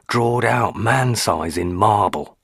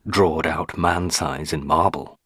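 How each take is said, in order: First: Put-on "drawed out man-size in marble" said slowly in the old woman's voice; slow, weighty delivery of the uncanny phrase; old housekeeper's phrase. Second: Said in the usual way. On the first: A narrator's reading. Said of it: "the phrase, "drawed out man-size in marble". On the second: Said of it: "the phrase".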